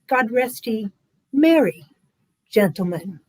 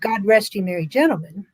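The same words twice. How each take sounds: First: A pause after merry, before gentlemen. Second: No pause between merry and gentlemen. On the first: The speaker calls it right. "a little comma in the original version, which goes after Mary" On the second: The speaker calls it wrong. "instead of"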